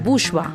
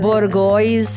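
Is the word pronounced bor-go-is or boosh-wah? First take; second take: boosh-wah; bor-go-is. First: It sounds like boosh-wah, with a soft sh. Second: Every letter is sounded out, like bor-go-is. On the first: The speaker calls it right. "मैं कहती हूँ इसका pronunciation बूशवा" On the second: The speaker calls it wrong. "सब उसका pronunciation उसका spelling से पढ़ते हैं"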